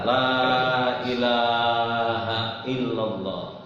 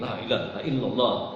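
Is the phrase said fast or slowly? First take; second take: slowly; fast. First: The phrase is said slowly and calmly. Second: The phrase is said quickly and hurriedly. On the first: The speaker calls it right. "Tapi bacanya pelan, pelan" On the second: The speaker calls it wrong. "jangan buru-buru. Bukan begini"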